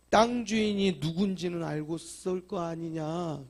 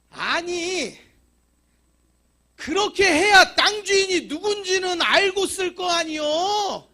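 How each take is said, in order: First: Said in the usual way. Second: Much higher, loud and slow indignant reply; loud landowner retort. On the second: Retold or imitated. Landowner scolds the complaining church, loud and high. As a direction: fling the answer back at them.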